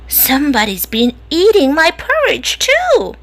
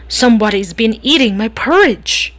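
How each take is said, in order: First: It is said in a soft, medium voice. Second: It is said in a deep, growly voice.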